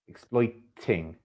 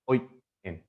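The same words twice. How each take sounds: First: The t is pronounced as a clear t sound. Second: The t is replaced by a glottal stop. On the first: This is the standard pronunciation. "a prescriptivist would like to hear the word uh, or hear the pronunciation exploiting" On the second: This is a non-standard pronunciation. "Russell Brand says exploiting"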